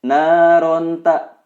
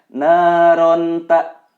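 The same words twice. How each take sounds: First: The n is pronounced clearly before the t. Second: The n is pronounced clearly before the t.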